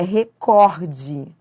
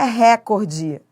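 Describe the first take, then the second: First: The stress is on the second syllable. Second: The stress is on the first syllable. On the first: The speaker calls it right. "É recorde. Então, é uma paroxítona" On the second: The speaker calls it wrong. "A pronúncia correta não é essa"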